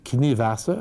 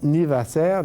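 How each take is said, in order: First: The name is said with German pronunciation. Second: The name is said with French pronunciation. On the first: "je vais prononcer ça à l'allemande" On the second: "prononçons à la française"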